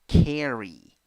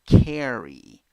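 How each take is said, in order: The two takes are said the same way.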